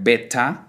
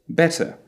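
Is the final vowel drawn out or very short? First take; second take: drawn out; very short. First: The final vowel is long and exaggerated. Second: The final vowel is very short. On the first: The speaker calls it wrong. "exaggerating the sound at the end of the syllable" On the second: The speaker calls it right. "It is actually a very short sound at the end"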